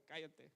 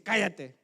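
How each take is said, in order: First: Said in the usual way. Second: Orden gritada, fuerte y seca; grito imitado. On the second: Retold or imitated. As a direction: imita el grito de un jefe que manda callar. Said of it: "así me gritó". (grito de mando imitado)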